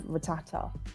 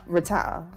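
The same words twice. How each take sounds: First: The second T sound is clearly pronounced. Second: The second T sound is dropped. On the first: The speaker calls it right. "instead of" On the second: The speaker calls it wrong. "I could pronounce the first T but not the second"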